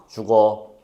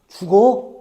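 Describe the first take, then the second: First: It is said in a neutral tone. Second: It is said in a worried tone. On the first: The speaker is just passing on information. "정보를 전달하려는 의도가 느껴져요" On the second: The speaker is concerned about the listener. "걱정이라는 마음이 느껴져요"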